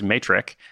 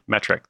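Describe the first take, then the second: First: The word is said like 'matrix'. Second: The word is said like 'metric'. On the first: The speaker calls it wrong. "which for years I've mispronounced as matrix" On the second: The speaker calls it right. "Okay, metric, there it is"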